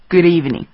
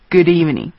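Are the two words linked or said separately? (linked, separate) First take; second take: linked; linked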